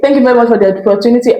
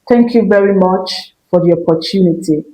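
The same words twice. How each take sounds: First: The phrase is spoken quickly and rushed. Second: The phrase is spoken slowly and calmly. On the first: The speaker is anxious and wants to finish. The speaker calls it wrong. "You're not saying" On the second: The speaker is confident and has authority. The speaker calls it right. "You just stand up"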